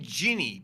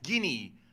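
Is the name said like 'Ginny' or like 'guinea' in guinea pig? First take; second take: Ginny; guinea. First: The name sounds like 'Ginny'. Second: The name sounds like 'guinea' in guinea pig. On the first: The speaker calls it wrong. "I always pronounce the name Ginny" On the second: The speaker calls it right. "but that's Guinea, like guinea pig"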